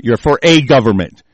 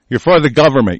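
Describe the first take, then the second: First: The single word "a" said long and firm; stress on a. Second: Said in the usual way. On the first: Real, not acted. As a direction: lean hard on "a" to correct "the".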